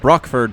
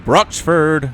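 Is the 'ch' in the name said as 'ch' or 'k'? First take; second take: k; ch. First: The middle consonant is a 'k' sound. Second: The middle consonant is a 'ch' sound. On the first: "C H can be a cuss sound" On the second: "Also a ch sound"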